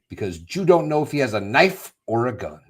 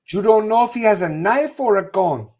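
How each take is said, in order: First: It is said in the speaker's ordinary accent. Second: It is said in an imitated Mexican accent.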